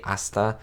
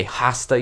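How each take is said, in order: First: Hasta said as "asta"; silent H. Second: Hasta with the H sounded; H pronounced. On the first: Spanish speaker showing viewers the right way, hasta with silent H. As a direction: drop the H of hasta, starting on the vowel. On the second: Spanish speaker showing viewers the wrong way, hasta with H sounded. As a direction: say hasta with an audible H at the start. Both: Shown as a demonstration. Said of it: "you don't say the H".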